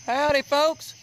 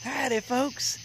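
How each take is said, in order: First: High, twangy "Howdy, folks" greeting; Catfish Cooley voice. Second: A second, softer "Howdy, folks" in the same voice; Catfish Cooley voice. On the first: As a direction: greet the folks like a country showman. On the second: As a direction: repeat the showman greeting more quietly. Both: Shown as a demonstration. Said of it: "I sound like Catfish Cooley when I did that".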